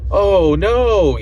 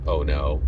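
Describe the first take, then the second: First: High, louder mock alarm. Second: Low, soft, deadpan "Oh no"; flat and unbothered. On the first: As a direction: play her startled cry aloud. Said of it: "she says that literally out loud". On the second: Retold or imitated. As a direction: say "Oh no" like she's just vibing. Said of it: "before she was just kind of vibing".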